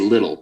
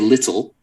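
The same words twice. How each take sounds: First: The t sound is swallowed and soft. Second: The t sound is clearly pronounced. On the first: "they say little" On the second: "They don't say little"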